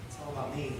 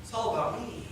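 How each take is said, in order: First: Quieter, lower repeat; softer echo. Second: Said in the usual way. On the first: Retold or imitated. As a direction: let it fall away softly. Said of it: "repeated softer". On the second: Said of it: "repeated, fading".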